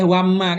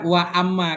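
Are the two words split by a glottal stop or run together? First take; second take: run together; glottal stop. First: Wa runs straight into amma without a break. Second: A glottal stop separates wa from amma. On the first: The speaker calls it wrong. "Nggak boleh wamma kan nggak boleh" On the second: The speaker calls it right. "kalau ada hamzah kayak a ini nggak nggak boleh hilang ini kan. Tetap wa amma"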